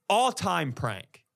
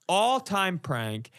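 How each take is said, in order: Both takes have the same delivery.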